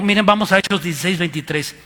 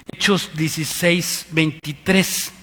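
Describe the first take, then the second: First: Said in the usual way. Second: Hechos dieciséis veintitrés said slowly, word by word; slow clear citation; slow dictation. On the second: Shown as a demonstration. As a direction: read out the reference slowly for them.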